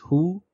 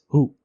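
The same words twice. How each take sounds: First: The vowel is held slightly longer. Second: The vowel is short and clipped. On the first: "slightly prolonged" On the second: "as compared to this who"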